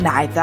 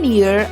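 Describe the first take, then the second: First: It is said with the British pronunciation. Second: It is said with the American pronunciation. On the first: "mostly used by British" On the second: "commonly used by Americans"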